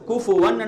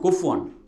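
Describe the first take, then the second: First: The f sound is followed by a u vowel. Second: The f sound has no vowel after it. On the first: The speaker calls it right. "குஃபு ஒன் என்று ஓதணும்" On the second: The speaker calls it wrong. "ஃபாவுக்கு சுக்குன் வைக்கிறது"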